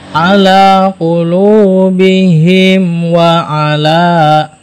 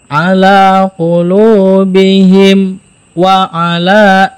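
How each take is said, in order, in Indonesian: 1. Huruf m menyambung ke wa tanpa saktah. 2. Huruf m ditahan sebentar dengan saktah sebelum wa.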